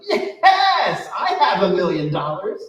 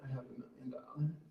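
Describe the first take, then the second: First: It is said with excited, joyful conviction. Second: It is said flatly, without feeling.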